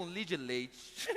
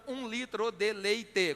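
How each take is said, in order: First: "um litro de leite" shrunk to "um lidileit"; clipped Minas-style "um litro de leite", like "um lidileit"; Mineiro syllable-dropping. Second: "um litro de leite" slowly, every syllable separate and full; over-articulated "um litro de leite", ending in a full "te"; every syllable sounded. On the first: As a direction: swallow the endings of "um litro de leite" into three syllables. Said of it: "insiste em reduzir a quantidade de sílabas". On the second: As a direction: spell out "um litro de leite" syllable by syllable, final vowels unreduced. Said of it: "com seis sílabas".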